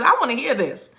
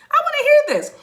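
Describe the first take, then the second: First: Said in the usual way. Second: Very high imitated voice; high-pitched eager listener. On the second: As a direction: squeal it as an eager eavesdropper from above. Heaven's listeners quoted, repeated higher.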